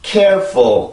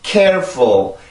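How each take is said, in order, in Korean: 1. 첫 음절에 강세를 주면 강약 리듬이 생겨요. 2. 첫 음절에 강세를 주면 강약 리듬이 생겨요.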